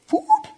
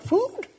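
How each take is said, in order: First: Extremely high squeaky rise on "Food?"; more incredulous. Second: Much higher questioning rise on "Food?"; incredulous. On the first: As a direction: push "Food?" even higher in disbelief. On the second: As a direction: ask "Food?" as if it's absurd. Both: Shown as a demonstration. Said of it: "mocking the worry".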